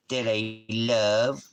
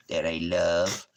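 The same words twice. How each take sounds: First: Drawn-out, slow "that I love"; slow doting coo. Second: Said in the usual way. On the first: Shown as a demonstration. Owner drawing out "that I love" slowly to his dog. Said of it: "repeated line, slower and higher". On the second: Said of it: "repeated line, second take marked".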